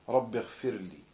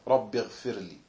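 No difference in how they are said.

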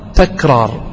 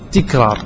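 First: The first syllable has the vowel a. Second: The first syllable has a vowel other than a. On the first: The speaker calls it right. "والصواب تكرار بفتح التاء" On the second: The speaker calls it wrong. "المنتشر بالناس أنهم يقولون"

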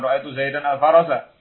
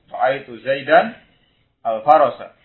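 First: The words run on without a pause. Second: There is a short pause before the last word. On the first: The speaker calls it wrong. "Jadi membacanya bukan" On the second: The speaker calls it right. "Mungkin ada jeda sejenak karena dia baru sadar kalau salah"

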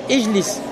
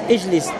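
No difference in how they are said.

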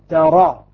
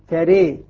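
First: The vowel after r is an open a. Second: The vowel after r leans to e. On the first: "فتح" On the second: "إمالة"

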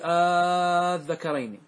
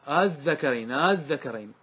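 First: The opening vowel is drawn out into a long vowel. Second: The opening sound is softened between glottal stop and vowel. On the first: "يبدل مدا فتمد، تقول قل الذكرين، هذا المد" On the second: "ولا هو بالمد، بينهما"

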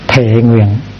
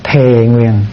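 First: Both syllables have a heavy glottalized tone. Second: Both syllables have a smoothly falling tone. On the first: This is the Sino-Vietnamese form. "Hai cái dấu nặng là thề và nguyện" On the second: This is the native Vietnamese form. "Khi mà Việt hóa nó thành là thề nguyện, nó nhẹ hơn"

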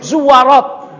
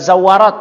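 First: The first vowel is u. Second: The first vowel is a. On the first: It means women who visit graves. The speaker calls it right. "para ulama yang membahas tentang zawarat itu membacanya zuwarat" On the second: It means women who often visit graves. The speaker calls it wrong. "bukan zawarat"

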